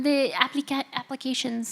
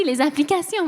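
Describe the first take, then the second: First: Applications said the English way, ending in shun; English sounds in applications, not French; English-style pronunciation. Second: Applications said the French way, ending in a nasal sion; French sounds in applications, nasal final vowel; French pronunciation. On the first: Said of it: "Des applications?". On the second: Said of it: "Ouais, merci". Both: Real, not acted.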